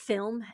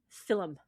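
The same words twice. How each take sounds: First: It is one syllable, with L straight into M. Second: A small extra vowel comes between L and M. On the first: "You know the word film" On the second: "in Ireland they pronounce it film... a little thing between the L and the M"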